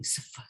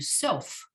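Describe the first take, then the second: First: The s and f run together without vowel. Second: An o vowel sits between s and f. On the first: The speaker calls it wrong. "That doesn't sound like anything" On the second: The speaker calls it right. "You need a vowel to help you"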